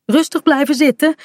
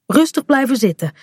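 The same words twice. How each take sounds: First: Higher, lightly raised call. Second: Mildly raised pitch, close by, not calling; steady instruction. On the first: Mother runs into the sea to the children, calling out. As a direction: call instructions across the water. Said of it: "roept ze". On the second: Mother has reached the two children, steadily instructing. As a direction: tell them to stay seated, without shouting. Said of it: "zegt ze als ze bij Kaat en Bink is". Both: A narrator's reading.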